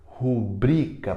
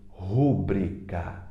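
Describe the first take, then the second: First: The stress is on the middle syllable. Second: The stress is on the first syllable. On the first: The speaker calls it right. "É o bri que é mais forte" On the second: The speaker calls it wrong. "Como é que a gente ouve por aí?"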